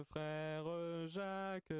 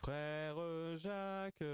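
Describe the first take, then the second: No difference in how they are said.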